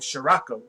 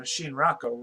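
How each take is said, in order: First: "Shirako" said without an n; alternate pronunciation. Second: "Shinrako" with an n sound; alternate pronunciation. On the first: Reader trying a streamer's unfamiliar name, "Shirako" without an n. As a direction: say "Shirako" as shuh-RAH-ko. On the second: Reader offering another try at the name, "Shinrako" with an n. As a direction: say "Shinrako" as shin-RAH-ko. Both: Shown as a demonstration. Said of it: "however you say it".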